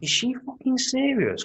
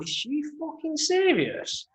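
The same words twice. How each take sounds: First: High incredulous mock outrage; disbelief. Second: High, slow, drawn-out disbelief. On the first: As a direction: sneer it in disbelief. Retelling disbelief at woman on plane. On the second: Retold or imitated. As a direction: stretch out the outrage in disbelief. Repeats disbelief, slower.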